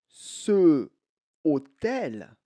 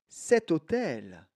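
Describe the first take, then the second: First: No t sound links the two words. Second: A t sound links the two words. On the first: The speaker calls it wrong. "il y a un petit problème parce que hôtel commence par H" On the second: The speaker calls it right. "On va ajouter un T"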